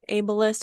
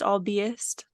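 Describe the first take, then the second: First: It begins with an 'able' sound. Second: It begins with an 'alb' sound. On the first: The speaker calls it right. "The word ableist, that's a word, right?" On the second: The speaker calls it wrong. "albeist is how I was reading it in my head"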